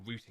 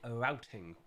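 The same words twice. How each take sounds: First: It is said the British way. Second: It is said the non-British way.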